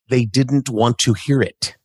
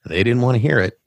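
First: Every word is carefully and fully articulated. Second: The words are relaxed and run together naturally. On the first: The speaker calls it wrong. "you don't have to pronounce it like this" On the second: The speaker calls it right. "however it fits in context"

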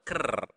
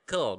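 First: The word ends with a clear R sound. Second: The word ends with an L sound. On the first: The speaker calls it right. "but ker. Okay, so remember to pronounce the R clearly" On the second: The speaker calls it wrong. "not kel"

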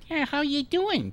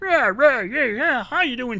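First: An easier, more relaxed character voice. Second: A cocky, strained character voice from the throat. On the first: "eventually the voice is more like" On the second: "My voice is kind of cocky"

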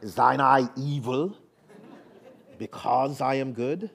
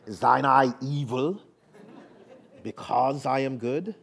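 First: It is said in a put-on British accent. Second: It is said in a put-on British accent.

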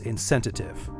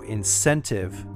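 First: The word is said with an extra sound added. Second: The word is said without extra sounds. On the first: The speaker calls it wrong. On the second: The speaker calls it right.

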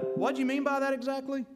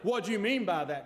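First: It sounds gentle and gracious. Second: It sounds sharp and accusing.

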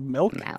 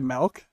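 First: Milk is said in a plain, usual way. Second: Milk is said in a regional Canadian way. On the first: The speaker calls it right. "instead of milk" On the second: The speaker calls it wrong. "people say milk and instead of milk"

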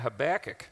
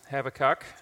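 First: It is said the American way. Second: It is said the Australian way.

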